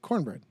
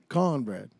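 First: It is said with a Northern US accent. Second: It is said with a Southern US accent. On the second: "If it's Southern"

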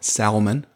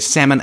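First: The L in the word is pronounced. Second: The L in the word is silent.

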